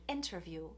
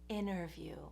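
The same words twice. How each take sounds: First: The T after the N is clearly pronounced. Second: The T after the N is dropped. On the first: "You know the word interview" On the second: "we say interview"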